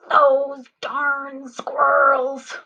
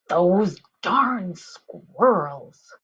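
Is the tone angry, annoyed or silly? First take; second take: angry; annoyed. First: It is said in an angry voice. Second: It is said in an annoyed voice.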